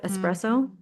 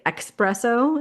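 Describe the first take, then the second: First: The word begins with an 'ess' sound. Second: The word begins with an 'ex' sound. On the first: The speaker calls it right. "instead of espresso" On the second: The speaker calls it wrong. "People say espresso"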